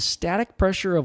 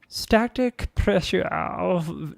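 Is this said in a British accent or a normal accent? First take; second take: normal; British. First: It is said in the speaker's normal accent. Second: It is said in a British accent.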